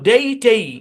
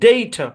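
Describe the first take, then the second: First: The second syllable has a long 'ay' vowel. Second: The second syllable has a weak schwa vowel. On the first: The speaker calls it wrong. "নিয়ম অনুসারে এই শব্দের উচ্চারণ হওয়ার কথা ছিল ডেই টেই" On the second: The speaker calls it right. "এখানে দিবে শোয়া সাউন্ড"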